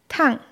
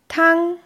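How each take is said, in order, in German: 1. Die Tonhöhe fällt von hoch scharf ab. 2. Die Tonhöhe bleibt hoch und gleichbleibend. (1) "Beim vierten Ton fällt die Stimme abrupt von einem hohen Niveau ab" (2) "Der erste Ton wird gleichbleibend hochgesprochen"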